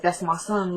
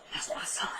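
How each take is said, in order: First: Said in the usual way. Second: Voiceless, much softer, breaking into tears; retold grief, barely getting it out; about to cry. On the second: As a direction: let the words collapse into a tearful whisper. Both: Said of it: "And she starts crying".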